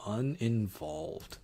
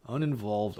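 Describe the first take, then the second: First: Uninvolved said slowly, pondering; musing over which word fits, said slowly; slow, drawn-out pick. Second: Said in the usual way. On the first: Real, not acted. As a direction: stretch the word Uninvolved out slowly as you settle on it. Repeats the chosen quiz word.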